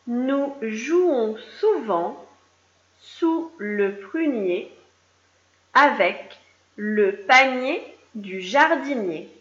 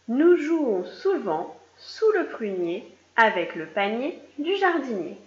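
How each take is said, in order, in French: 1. La phrase est lue plus lentement. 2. La phrase est lue à un rythme normal.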